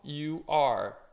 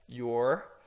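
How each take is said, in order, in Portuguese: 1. É dito como duas palavras inteiras. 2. É dito como uma sílaba contraída.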